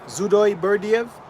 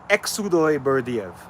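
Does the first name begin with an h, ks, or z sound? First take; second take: z; ks. First: The first name begins with a z sound. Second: The first name begins with a ks sound. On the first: "Almost true, but my name began with a H" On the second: "the second one"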